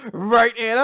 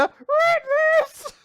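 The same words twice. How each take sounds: First: Mock taunt. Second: Much higher squeaky little sister. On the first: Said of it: "I just love". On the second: Retold or imitated. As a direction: squeak it like a cartoon kid. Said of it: "squeaky voice".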